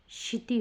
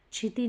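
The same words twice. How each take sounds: First: क्षिति begun with a hushing "sh"; corrected pronunciation. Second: क्षिति begun with "chh"; wrong pronunciation. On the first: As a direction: say क्षिति as "kshiti". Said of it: "होगा". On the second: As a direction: say क्षिति as "chhiti". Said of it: "नहीं". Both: Shown as a demonstration.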